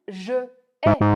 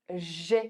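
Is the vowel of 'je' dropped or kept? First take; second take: kept; dropped. First: The vowel of 'je' is kept before 'ai'. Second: The vowel of 'je' is dropped before 'ai'. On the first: The speaker calls it wrong. "je ne peux pas dire je ai" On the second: The speaker calls it right. "Il faut que je fasse ici une élision"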